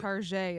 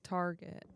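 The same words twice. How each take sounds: First: It is said with a fancy French-style ending. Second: It is said with a plain English ending. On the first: The speaker jokes that the store is posh. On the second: The speaker gives the ordinary name.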